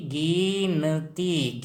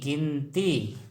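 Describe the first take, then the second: First: गिनती stretched syllable by syllable, गि-न-ती; slow teaching breakdown of गिनती; sounded out slowly. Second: Said in the usual way. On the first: Shown as a demonstration.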